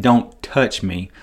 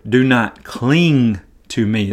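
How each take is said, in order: First: Slow, cold, pushing her away; curt rejection. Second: Slow, gentle, unhurried; gentle correction. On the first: Preacher showing how Jesus did not mean it, curt and cold. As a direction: say it as a curt brush-off. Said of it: "he's not saying". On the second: Preacher giving the better Greek reading, gentle and slow. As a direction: ease her off kindly. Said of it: "the Greek says". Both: Shown as a demonstration.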